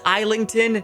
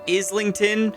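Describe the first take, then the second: First: It sounds different from the London borough name. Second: It sounds like the London borough name. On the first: This is the author's name. The speaker calls it right. "it is Islington" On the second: This is the borough in London. The speaker calls it wrong. "not Islington, like the borough in London"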